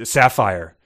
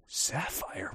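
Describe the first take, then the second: First: Said in the usual way. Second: Hushed, incredulous echo of the name; mock disbelief. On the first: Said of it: "if I was like". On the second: Host mocking someone hung up on a stripper's name, mock disbelief. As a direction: repeat it softly as a baffled question. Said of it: "You wouldn't be like".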